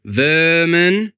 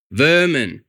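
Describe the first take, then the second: First: Vermin louder with rising tune; stress on Vermin. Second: Said in the usual way. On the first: A narrator's reading. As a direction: Vermin hurled as a question-like accusation. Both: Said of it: "You know what that means?".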